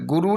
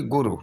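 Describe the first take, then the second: First: गुरु with a held roo; long final oo. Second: गुरु with a brief ru; short final u. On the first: Teacher showing the error, गुरु with long roo. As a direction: stretch the end of गुरु. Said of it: "नहीं बल्कि". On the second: Teacher giving the correction, गुरु with short ru. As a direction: clip the end of गुरु. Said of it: "छोटा ऊ की मात्रा". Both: Shown as a demonstration.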